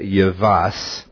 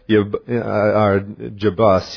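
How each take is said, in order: First: It begins with a Y sound and has a V. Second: It begins with a J sound and has a B. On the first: This is the original pronunciation. "I think you're really supposed to say Yevas" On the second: This is the customary local pronunciation. "But we say it, Jebus here"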